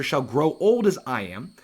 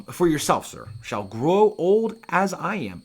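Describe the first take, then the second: First: Said in the usual way. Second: Put-on slow, higher, creaky old man. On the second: Hamlet's line read aloud.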